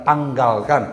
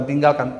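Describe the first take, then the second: First: Tanggalkan with a clear open a in tang; corrected word. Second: Tinggalkan with the short i of tinggal, as the wrong word. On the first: Preacher corrects himself to the right word, tanggalkan. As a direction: put the a of tanggalkan firmly in place. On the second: Preacher corrects his own slip, saying tinggalkan as the wrong word. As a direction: say tinggalkan, the word he rejects, in passing. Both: Shown as a demonstration. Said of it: "bukan tinggalkan".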